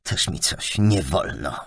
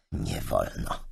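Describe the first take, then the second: First: Slow mocking scoff at Też mi coś nie wolno; sarcastic. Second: Sarcastic echo. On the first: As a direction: drag it out with scorn. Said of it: "z przekąsem". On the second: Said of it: "powtórzyła czarownica z przekąsem". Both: A narrator's reading.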